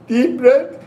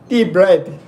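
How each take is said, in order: First: The voice sounds more female. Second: The voice sounds less female. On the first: The speaker calls it right. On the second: The speaker calls it wrong.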